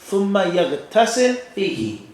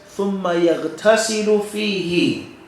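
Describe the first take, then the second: First: The verb ends with no vowel at all. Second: The verb ends with a short u vowel. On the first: "the second way says, ... and with a sukoon" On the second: "The first way says, ... With a dhamma, short vowel sound"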